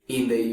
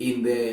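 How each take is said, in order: The two takes are said the same way.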